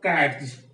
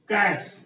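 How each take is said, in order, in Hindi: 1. इस शब्द का अंत एक घोष z ध्वनि से होता है। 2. इस शब्द का अंत एक अघोष s ध्वनि से होता है। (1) "not cats" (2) "it produces sound so. So the pronunciation is cats"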